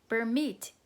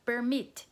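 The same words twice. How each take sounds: The two takes are said the same way.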